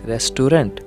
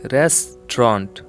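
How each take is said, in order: First: The middle vowel is pronounced fully. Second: The middle vowel is dropped entirely. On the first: The speaker calls it wrong. "मैंने तो गलत कहा।" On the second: The speaker calls it right. "ए और यू लेटर silent रहेगा।"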